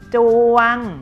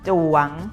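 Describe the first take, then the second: First: The syllable is said on a level mid tone. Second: The syllable is said on a rising tone.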